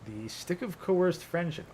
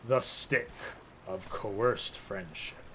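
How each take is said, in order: First: It is read out in a plain tone. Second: It is read out in a dramatic tone.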